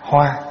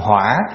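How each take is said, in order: First: The word is said on a level, even pitch. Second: The word is said with a dipping, then rising pitch. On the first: It means flower. "không để dấu" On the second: It means fire. "để dấu hỏi vô, thành hỏa"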